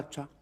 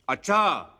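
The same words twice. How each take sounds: First: It sounds thoughtful and is drawn out long. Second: It sounds angry and is said loudly.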